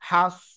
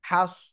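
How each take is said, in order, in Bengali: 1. স্বরধ্বনিটি ঠোঁট গোল করে, একটু ভরাট শব্দে বলা হয়। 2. স্বরধ্বনিটি ঠোঁট গোল করে, একটু ভরাট শব্দে বলা হয়।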